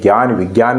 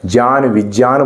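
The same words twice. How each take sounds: First: The cluster is said with a g sound. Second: The cluster is said with a j sound. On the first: This is the modern, easier pronunciation. "ज्ञान विज्ञान नहीं ... आज के दौर में इसको गे ही बोलते हैं" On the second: This is the older traditional pronunciation. "पहले के जो हैं लोग वो क्या बोलते हैं जय ... ज्ञान विज्ञान बोलते हैं"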